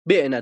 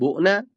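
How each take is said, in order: First: The first vowel is an i sound. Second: The first vowel is a u sound. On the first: "در یایی هم کسره بدی" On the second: "در یایی زمش بدیم"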